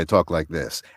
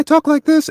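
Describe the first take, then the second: First: The voice is deep, like a grown man's. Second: The voice is higher, like a boy's voice. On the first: This is the voice after it changed. "and the next day" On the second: This is the voice before it changed. "my voice changed early, you know, one day"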